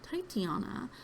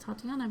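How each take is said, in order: First: The first syllable sounds like 'ti'. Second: The first syllable sounds like 'ta'. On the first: The speaker calls it right. "but it's actually Titiana" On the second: The speaker calls it wrong. "I always pronounced it Tatiana"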